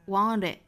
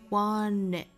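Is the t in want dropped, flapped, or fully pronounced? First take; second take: flapped; dropped. First: The t is a quick flap before it. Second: The t is dropped and n links to it. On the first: "把 t 发成 flap t" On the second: "把这个 t 省掉了，直接 n 跟后面的元音做连读了"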